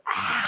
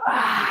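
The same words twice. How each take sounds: First: Lion's breath. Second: Forceful lion's breath exhale. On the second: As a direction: push the air out hard with a big ah. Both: Shown as a demonstration. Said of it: "That's actually lion's breath".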